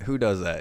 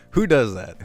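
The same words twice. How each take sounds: First: Said in the usual way. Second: Louder, incredulous who does that; exasperated. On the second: Real, not acted. Vlogger baffled by tourists asking students, loud disbelief. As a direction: throw up your hands at it, loud.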